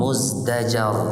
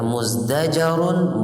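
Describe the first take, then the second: First: The word ends on "r" with no "-un". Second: The word ends with a final "-un" sound. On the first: The reader stops on this word. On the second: The reader continues without stopping.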